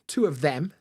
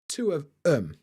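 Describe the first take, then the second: First: The th sound of them is fully pronounced. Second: The th sound is dropped from them. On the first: "which is what you might expect in a more, you know, R P style accent" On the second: "Two of um, not them"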